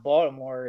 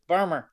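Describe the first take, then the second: First: All syllables are said in a standard accent. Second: The word is squeezed in a local Baltimore accent. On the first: "it's not Baltimore" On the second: "it's just the way we say"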